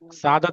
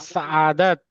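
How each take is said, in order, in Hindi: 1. बीच का स्वर बिना गले के झटके के आगे बढ़ता है। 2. बीच के स्वर से पहले गले का झटका होता है। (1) "सादत नहीं होता है" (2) "ऐसे होता है"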